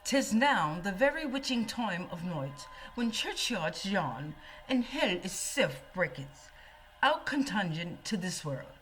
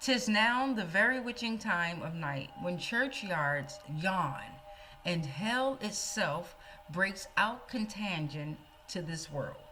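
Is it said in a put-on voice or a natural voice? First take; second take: put-on; natural. First: It is said in a put-on theatrical voice. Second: It is said in the speaker's natural voice.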